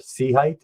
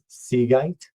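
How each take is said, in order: First: The second part starts with an H sound. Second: The second part starts with a G sound. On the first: This is how it is said outside the US. "as it gets pronounced everywhere" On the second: This is how it is said in the US. "as we pronounce it in the U S"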